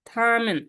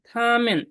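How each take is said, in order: Both takes have the same delivery.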